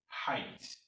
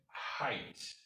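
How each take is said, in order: Both takes have the same delivery.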